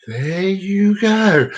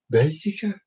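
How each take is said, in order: First: Stretched-out, sing-song; slow drawn-out. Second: Said in the usual way. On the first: Shown as a demonstration. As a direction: drag every word out. Repeated catchphrase.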